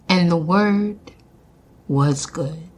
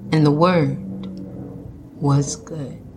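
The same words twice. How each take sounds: First: It is said in a raised voice. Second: It is said in a low voice.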